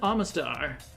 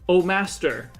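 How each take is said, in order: First: The name is said as one word. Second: The name is said as two words, 'oh master'.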